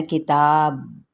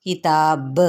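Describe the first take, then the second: First: "किताब" with the final ba closed flat, no qalqala bounce; wrong pronunciation demo. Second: "किताब" ending with a bouncing, echoed ba; qalqala demo. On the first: Teacher showing students the wrong way to say "किताब", ba stopped flat. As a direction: end "किताब" dead, without the echo on ba. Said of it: "किताब इस तरीके से नहीं पढ़ना". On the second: Teacher showing students the right "किताब", ba bouncing with qalqala. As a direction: let the ba of "किताब" rebound in qalqala. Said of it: "ये वाला होता है कलकला हिला के रखना". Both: Shown as a demonstration.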